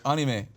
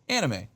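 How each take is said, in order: First: It is said with a Japanese pronunciation. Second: It is said with an American English pronunciation. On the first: It sounds pretentious in English. The speaker calls it wrong. "how they would say it in Japan" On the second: It sounds like a normal English word. The speaker calls it right. "a word that's become so Americanized"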